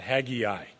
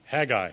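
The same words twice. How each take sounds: First: The name is said with an 'eye' sound. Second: The name is said without an 'eye' sound. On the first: The speaker calls it wrong. "the prophet's name is not" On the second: The speaker calls it right. "It is Haggai"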